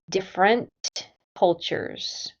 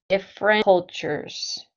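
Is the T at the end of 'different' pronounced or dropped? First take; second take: pronounced; dropped. First: The T at the end of different is pronounced. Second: The T at the end of different is dropped. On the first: "I did not say different cultures" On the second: "I said different cultures. ... I don't pronounce the T in different"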